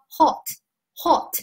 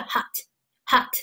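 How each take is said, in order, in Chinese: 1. 这是英式口音。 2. 这是美式口音。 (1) "这是英音" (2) "美音是hot"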